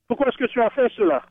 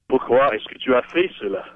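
First: It is said in a neutral tone. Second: It is said in a crabby tone.

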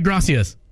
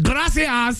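First: It is said plainly with an American accent. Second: It is said with an exaggerated Spanish accent.

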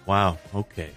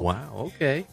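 First: It is said in a disappointed tone. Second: It is said in a flirty tone.

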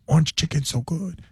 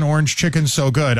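First: It is said quietly in a put-on accent. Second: It is said in his own normal voice.

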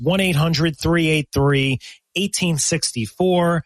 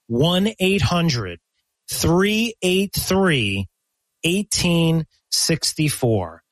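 First: It is said at a normal pace. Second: It is said slowly.

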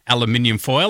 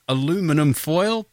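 First: It is said in an Australian accent. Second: It is said in an American accent.

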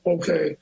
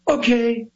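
First: It is said flatly without energy. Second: It is said with theatrical energy.

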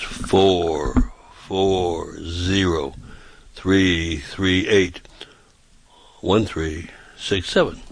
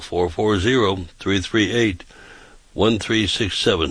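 First: The number is said slowly. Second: The number is said quickly.

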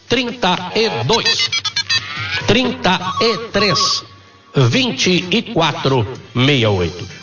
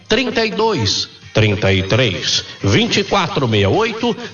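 First: The number is said slowly and carefully. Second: The number is said at normal speed.

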